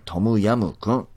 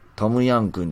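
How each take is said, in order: First: The second syllable ends with an m sound. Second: The second syllable ends with an n sound. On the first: The speaker calls it right. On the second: The speaker calls it wrong. "トムヤンくんじゃない"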